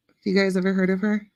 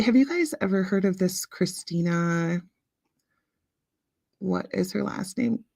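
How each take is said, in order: First: Said in the usual way. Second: Whisper. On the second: Real, not acted. Quiet aside to the chat.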